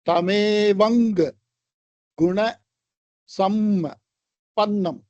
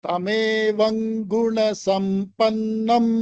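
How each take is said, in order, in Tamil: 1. சொற்கள் சிறு இடைநிறுத்தங்களால் பிரிக்கப்பட்டுள்ளன. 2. சொற்கள் இடைநிறுத்தம் இல்லாமல் ஒன்றாக ஒலிக்கின்றன. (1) "இவ்வளவு வார்த்தைகள் பிரிச்சு சொன்னா" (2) "சேர்த்து சொன்னா"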